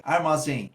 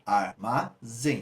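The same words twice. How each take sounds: First: Said in the usual way. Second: "armazém" very slowly as ar, ma, zém with gaps; syllable by syllable. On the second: Shown as a demonstration. Teacher finding the stressed syllable for students, "armazém" slowly split up. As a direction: break "armazém" into three separate beats. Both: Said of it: "Qual é a sílaba tônica?".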